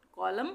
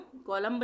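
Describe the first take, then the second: First: कॉलम ending on a plain M; silent B. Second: कॉलम्ब with an audible b after the M; wrong, B sounded. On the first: Teacher showing the right reading, कॉलम with silent B. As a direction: say कॉलम with no b after the m. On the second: Teacher showing what not to say, कॉलम्ब with final B. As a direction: end कॉलम्ब on a spoken B. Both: Shown as a demonstration. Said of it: "कॉलम्ब नहीं बोलेंगे".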